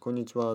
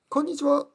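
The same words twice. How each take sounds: First: The greeting sounds cool and detached. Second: The greeting sounds warm and emotional. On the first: The speaker keeps an emotional distance. "クールな話し方" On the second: The speaker shows personal feeling. "僕のスタイルはどちらかというと少し感情的"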